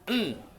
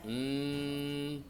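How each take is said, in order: First: The nasal hum is held for one short beat. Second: The nasal hum is held for two beats. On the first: "Kalau satu ketuk" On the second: "Tapi kalau dua ketuk"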